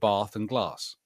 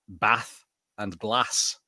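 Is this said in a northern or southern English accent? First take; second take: southern; northern. First: It is spoken in a southern English accent. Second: It is spoken in a northern English accent. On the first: "whereas in the south you get" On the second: "people in the north tend to say"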